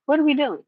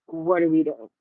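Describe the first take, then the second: First: High-pitched, incredulous repeat; exasperated disbelief. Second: Low, muted disbelief, falling away; low-key dismay. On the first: Retold reaction to casting, repeated higher. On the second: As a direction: ask it low, as a let-down reaction. Retold reaction to casting, first take. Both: Retold or imitated.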